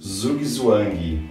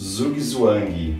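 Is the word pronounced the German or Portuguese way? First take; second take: Portuguese; Portuguese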